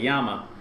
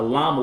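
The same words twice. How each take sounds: First: The word begins with a Y sound. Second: The word begins with an L sound. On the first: The speaker calls it right. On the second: The speaker calls it wrong.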